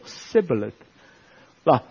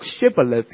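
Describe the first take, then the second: First: The word begins with an 's' sound. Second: The word begins with a 'sh' sound. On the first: The speaker calls it wrong. "他们是读sibboleth，露出了马脚" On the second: The speaker calls it right. "原来以法莲人读shibboleth"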